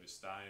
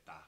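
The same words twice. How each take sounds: First: Said in the usual way. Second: "tá" with the first syllable cut off; clipped Brazilian form. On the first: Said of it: "They have está too in Portuguese". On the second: Shown as a demonstration. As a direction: say only "tá", dropping the es. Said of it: "They'll just cut off the E S".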